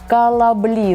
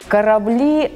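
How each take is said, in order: First: The middle consonant is an l sound. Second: The middle consonant is a rolled r sound. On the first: "«Р» меняйте на «л»" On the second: "например"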